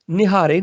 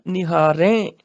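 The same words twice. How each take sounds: First: ਨਿਹਾਰੇ ending in a closed oral "e"; wrong pronunciation demo. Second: ਨਿਹਾਰੈ with an open, nasal "ain" ending; nasal plural ending. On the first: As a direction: say ਨਿਹਾਰੇ as "nihaare", no nasal. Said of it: "ਨਿਹਾਰੇ ਨਹੀਂ ਬੋਲਣਾ". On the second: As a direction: say ਨਿਹਾਰੈ as "nihaa-rain", nasalised. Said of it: "ਨਾਸਕੀ ਉਚਾਰਨ ਹੋਏਗਾ". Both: Shown as a demonstration.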